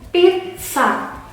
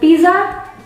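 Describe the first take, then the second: First: The double z sounds like 'ts'. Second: The double z lacks the 'ts' sound. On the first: The speaker calls it right. "cara membacanya yang betul adalah pizza" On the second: The speaker calls it wrong. "bukan pizza"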